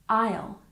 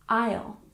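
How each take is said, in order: Both takes have the same delivery.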